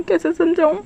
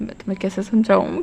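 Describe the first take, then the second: First: Higher, exasperated second try of कैसे समझाऊँ; exasperated repeat. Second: Said in the usual way. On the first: Acted. Wing gives up explaining to Wangshi, exasperated. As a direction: throw up your hands on कैसे समझाऊँ.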